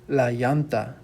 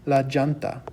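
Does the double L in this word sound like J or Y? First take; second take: Y; J. First: The double L is said like a Y sound. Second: The double L is said like a J sound. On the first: "The double L makes sort of like a Y sound" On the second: "it could also make sort of like a J sound"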